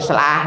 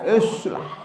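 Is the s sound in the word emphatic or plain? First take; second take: plain; emphatic. First: The s sound is plain and light. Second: The s sound is heavy and emphatic. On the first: The speaker calls it wrong. "Bukan islah" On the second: The speaker calls it right. "pakai short islah"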